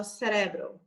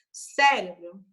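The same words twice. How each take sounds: First: "cerebro" stressed on the middle syllable, ce-RE-bro; Spanish pronunciation. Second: "Cérebro" stressed on the first syllable, CÉ-re-bro; pronúncia incorreta. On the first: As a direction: move the stress in "cerebro" onto RE. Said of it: "no espanhol eu falo". ("cerebro" em espanhol, com a tônica em RE) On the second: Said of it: "está incorreta". ("Cérebro" com a tônica errada em CÉ) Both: Shown as a demonstration.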